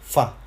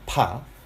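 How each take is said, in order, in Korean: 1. 이 음절은 F 소리로 시작합니다. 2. 이 음절은 P 소리로 시작합니다. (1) "그 다음에 F 발음" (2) "하나는 일반적으로 P 발음입니다"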